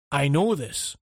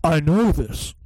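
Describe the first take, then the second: First: Game character voice. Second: Louder hammed-up hero line; game character voice. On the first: Retold or imitated. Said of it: "I just went to you". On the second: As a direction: ham up the flat hero line. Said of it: "In fact, no, no, I went".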